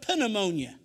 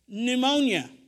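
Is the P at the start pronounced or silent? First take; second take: pronounced; silent. First: The initial P is pronounced. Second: The initial P is silent. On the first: This is not how English speakers say it. "We don't call it pneumonia" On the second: This is the usual English pronunciation. "We call it pneumonia"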